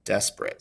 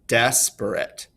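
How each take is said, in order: First: Said in the usual way. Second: "desperate" slowly as DES-per-ate, first syllable strong; overemphasized first stress. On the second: Shown as a demonstration. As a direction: stretch and lean on DES in "desperate". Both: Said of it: "more emphasis on the beginning".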